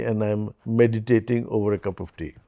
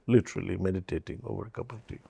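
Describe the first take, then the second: First: Said in the usual way. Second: Drops much softer and speeds up on literally; soft quick aside. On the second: Shown as a demonstration. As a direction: tosses it off softly, quickly, almost to himself.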